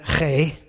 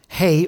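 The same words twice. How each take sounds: First: The h is a harsh gurgle in the throat. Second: The h is a plain, soft breath. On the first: "if you can get the gurgle going" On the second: "They pronounce it hey"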